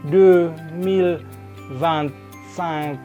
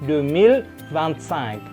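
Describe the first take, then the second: First: It is said slowly, word by word. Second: It is said quickly, words run together. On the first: The speaker calls it wrong. "Nggak pelan-pelan seperti itu" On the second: The speaker calls it right. "ketika natif ngomong itu dia cepat"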